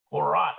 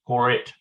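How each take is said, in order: First: "korat" ending in an open ah vowel; second syllable of "korat" as "raht"; alternative reading korat. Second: "korit" with a short i in the last syllable; second syllable of "korit" as "rit"; alternative reading korit. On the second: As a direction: say "korit" ending like English "it". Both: Shown as a demonstration. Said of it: "It could be korat or korit".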